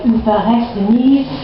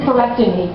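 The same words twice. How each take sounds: First: The word is said in a French accent. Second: The word is said in a plain, ordinary accent.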